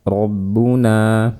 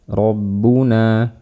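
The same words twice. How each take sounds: No difference in how they are said.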